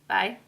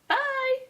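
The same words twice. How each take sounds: First: It is said in a plain, normal way. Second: It is said in an odd, weird way.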